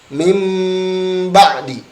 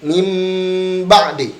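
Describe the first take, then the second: Both takes have the same delivery.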